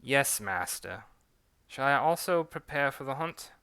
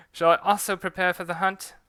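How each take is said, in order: First: British servant, a little eager; British accent, asking keenly. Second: Put-on louder, higher British accent retake; British accent redone with more energy. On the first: Acted. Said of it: "a British and French accent". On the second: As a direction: stronger British accent take. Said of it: "get used to switching back".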